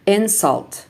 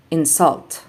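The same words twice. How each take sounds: First: INsult, stressed on the first syllable; noun stress. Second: InSULT, stressed on the second syllable; light in, strong SULT in insult; verb stress. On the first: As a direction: punch IN in Insult, then fall. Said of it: "nouns are stressed on the first syllable". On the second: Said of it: "verbs are stressed on the second syllable". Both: Shown as a demonstration.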